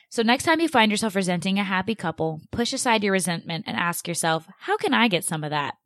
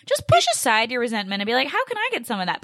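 First: Said in the usual way. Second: High-pitched incredulous parody of advice; heated mocking quote. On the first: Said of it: "so I'm gonna read this, like, verbatim". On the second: Host quotes unhelpful article advice back, heated mockery. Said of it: "this gets me heated".

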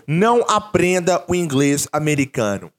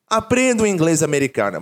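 First: Não aprenda o inglês americano, with não hit hard; stress on não. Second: Aprenda o inglês americano, with Aprenda leading firmly; stress on Aprenda. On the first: Teacher to students, stressing não as a warning. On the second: Teacher correcting himself, stressing Aprenda. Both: Shown as a demonstration. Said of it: "O que que eu quero dizer com isso?".

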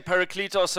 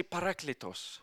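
First: "Parakletos" as pa-ra-KLEE-tos; common alternative pronunciation. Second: "Parakletos" as pa-RAK-le-tos, with open "ah"; preferred Greek pronunciation. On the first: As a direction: say "Parakletos" with a long "ee" in "kle". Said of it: "most people say Parakletos". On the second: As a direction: say "Parakletos" with an "eh" in "kle". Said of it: "Everyone say Parakletos". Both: Shown as a demonstration.

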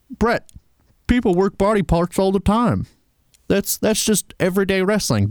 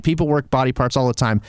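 First: Southern twang, mocking; Southern accent. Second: Said in the usual way. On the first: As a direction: play a snarky Southern fan. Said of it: "Don't know why you have a Southern accent". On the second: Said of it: "And you're right".

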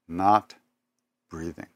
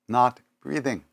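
First: "Not", a long pause, then "breathing" fades almost to nothing; pause before breathing, fading. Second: Said in the usual way. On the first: Retold or imitated. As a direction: hold a beat after "Not" and let "breathing" die away. Repeating that Baba stopped breathing.

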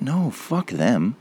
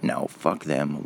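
First: Slow, higher mock boomer dismissal; mock selfish boomer. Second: Slow, softer smug dismissal; mocking boomers, slow and softer; muttered mock boomer. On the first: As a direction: drag it out like a smug pensioner. Mocking boomers' voice. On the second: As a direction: toss it off quietly like a smug pensioner.

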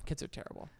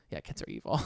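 First: Put-on "Kids are terrible" whispered like a secret; whispered aside. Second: Dropped low, mock-evil verdict on "evil"; mock sinister. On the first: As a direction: breathe "terrible" as a voiceless secret. Whispered follow-up joke. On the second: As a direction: pronounce "evil" low and menacing, as a joke.

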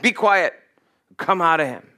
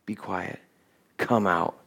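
First: Firm, commanding rebuke. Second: Very soft, low authority; hushed command. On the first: Jesus rebuking the demon, firm command. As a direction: order it out with authority. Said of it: "Jesus rebuked him and said". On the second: Jesus ordering the demon out, hushed command. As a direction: command it quietly, much lower and softer. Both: Acted.

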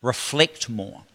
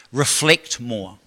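First: Quiet repetition. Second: Slow emphasis. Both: Shown as a demonstration. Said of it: "repeated key line".

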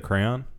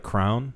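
First: Said in the usual way. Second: "crown" for crayon, one syllable. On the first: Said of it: "instead of crayon". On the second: Retold or imitated. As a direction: collapse crayon into "crown", rhyming with down. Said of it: "same people that say".

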